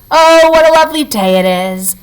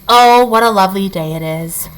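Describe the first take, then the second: First: High lilting sung phrase; sung birdsong. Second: Sung birdsong. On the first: Chickadee singing to the morning, high and lilting. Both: A narrator's reading. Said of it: "when the chickadees sang".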